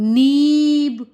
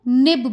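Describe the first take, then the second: First: The vowel is stretched long. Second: The vowel is kept short. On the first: The speaker calls it wrong. "कुछ भी जरा सा भी इसको बड़ा नहीं खींचूंगी" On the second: The speaker calls it right. "जैसे मैं इसको निब बोलूंगी"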